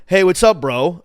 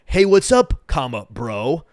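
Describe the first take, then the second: First: A louder, breezy "Hey, what's up, bro?" as if he's walking up to someone; casual greeting. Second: "Hey, what's up" said loud, then "comma, bro" slowed right down with a pause before it; spelled-out greeting. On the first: At the bar, greeting the media guy, loud and friendly. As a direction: greet him like a buddy at the bar. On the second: Retelling his exact words to the guy, with a slow spoken "comma". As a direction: read the punctuation aloud, slowly and deliberately. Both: Retold or imitated. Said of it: "I literally said".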